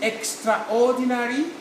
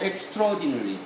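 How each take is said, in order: First: The A after 'extr' is pronounced as a syllable. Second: The A after 'extr' is silent, not pronounced. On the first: The speaker calls it wrong. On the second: The speaker calls it right.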